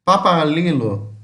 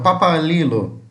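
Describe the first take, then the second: No difference in how they are said.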